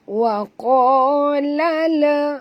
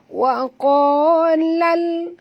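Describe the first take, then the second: First: The l bounces with an added vowel. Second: The l stops cleanly without a vowel. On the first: The speaker calls it wrong. "Dia akan baca wa qala la. Ha, itu kita tak nak" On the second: The speaker calls it right. "Ha, gitu ya"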